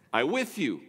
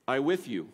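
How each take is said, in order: First: Strong, weighty stress on with; I WITH you, firm and final; emphatic. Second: Strong, weighty stress on with; I WITH you, set off by long pauses; emphatic. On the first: Pastor repeats the emphatic Hebrew phrase. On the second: Pastor gives the strong Hebrew phrase. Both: Shown as a demonstration. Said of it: "it's a strong, emphatic phrase".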